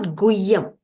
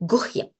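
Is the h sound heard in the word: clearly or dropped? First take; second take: dropped; clearly. First: The h sound after gu is dropped. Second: The h sound after gu is clearly pronounced. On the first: The speaker calls it wrong. "it's not Guyam" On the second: The speaker calls it right. "so her has to be pronounced"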